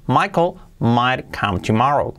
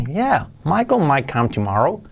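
First: Said in the usual way. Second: "Yeah, Michael might come tomorrow" with lifted, rising tune; with intonation. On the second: Shown as a demonstration. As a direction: swoop up on "Michael", lilting to "tomorrow". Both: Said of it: "Con entonación".

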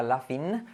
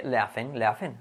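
First: "laughing" ending in a clear "feen"; wrong I ending. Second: "laughing" as "LA-fen"; softer E ending. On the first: Teacher showing what to avoid, wrong I ending. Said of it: "tampoco sería laughing". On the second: Teacher correcting the final vowel, softer E ending. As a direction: end "laughing" on a relaxed "fen". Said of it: "sino más, eh". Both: Shown as a demonstration.

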